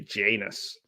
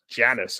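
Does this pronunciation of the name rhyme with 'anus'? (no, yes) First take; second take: yes; no. First: The name sounds like it rhymes with 'anus'. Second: The name does not sound like 'anus'. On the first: The speaker calls it wrong. "I definitely wouldn't say Janus because it's too too anusy" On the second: The speaker calls it right. "I think I'd say Janus"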